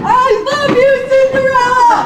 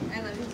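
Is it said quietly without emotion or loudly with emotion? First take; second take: loudly with emotion; quietly without emotion. First: It is said loudly with emotion. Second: It is said quietly and flatly.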